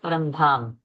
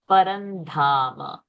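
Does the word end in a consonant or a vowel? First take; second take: consonant; vowel. First: The word ends abruptly on a bare m sound. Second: The word ends with a full ma vowel. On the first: The speaker calls it wrong. "People stop early only, giving it a halanta sound" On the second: The speaker calls it right. "ma is full"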